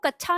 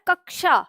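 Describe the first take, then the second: First: The middle sounds like 'chh', with no 'k'. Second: The middle sounds like 'ksh', with a clear 'k'. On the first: The speaker calls it wrong. "वो कच्छा नहीं होता, गलत होगा।" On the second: The speaker calls it right. "इसका उच्चारण होता है कक्षा।"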